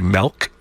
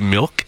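First: Milk is said in a small-town regional accent. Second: Milk is said with the usual standard pronunciation. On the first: "people from my small town say, I say milk" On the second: "instead of milk"

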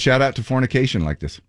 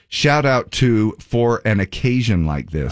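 First: The phrase is spoken quickly, with the words run together. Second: The phrase is spoken slowly, with the words kept apart. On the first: It sounds like a different, rude word. The speaker calls it wrong. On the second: The title is heard as intended. The speaker calls it right.

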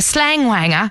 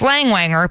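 First: It is said in a British accent. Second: It is said in an American accent.

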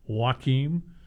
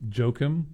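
First: The name is said the Swedish way. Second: The name is said the American way. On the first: "If you're from, you know, Sweden, it's Joachim" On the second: "If you're from the United States, it's probably Joakim"

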